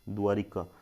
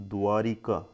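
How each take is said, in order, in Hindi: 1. अंतिम 'ka' से पहले 'i' स्वर बोला जाता है। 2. अंतिम 'ka' से पहले 'i' स्वर बोला जाता है।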